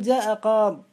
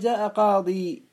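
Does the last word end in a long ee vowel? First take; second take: no; yes. First: The last word ends without a long ee vowel. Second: The last word ends with a long ee vowel. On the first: "فالأفصح حذف الياء" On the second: "ويجوز إثبات الياء"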